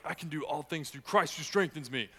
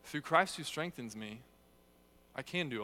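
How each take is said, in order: First: Louder, higher, a flexing gym boast; mock macho "I can do all things"; pumped-up boast. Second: Reverent, dependent reading; Christ first, humble. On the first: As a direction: brag it like a bodybuilder showing off. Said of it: "Instead of, like". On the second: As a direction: put "Through Christ" first and lean on it. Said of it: "say it". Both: Shown as a demonstration.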